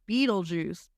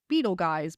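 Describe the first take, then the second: First: The name ends with a 'juice' sound. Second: The name ends with a 'guys' sound. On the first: The speaker calls it right. "it is still pronounced Beetlejuice" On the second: The speaker calls it wrong. "the wrong pronunciation"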